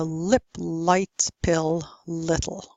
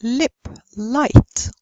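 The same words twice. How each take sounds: First: "lip, light, pill, little" all with dark L; American dark L. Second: "lip, light" with clear British L. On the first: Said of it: "only use the dark L". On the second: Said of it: "L plus vowel would be clear". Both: Shown as a demonstration.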